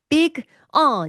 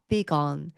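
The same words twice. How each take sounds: First: The two words are said separately. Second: The g links into the following vowel. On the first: The speaker calls it wrong. "이렇게 안 하죠?" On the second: The speaker calls it right. "그래서 gone이라는 소리가 나오는 거예요"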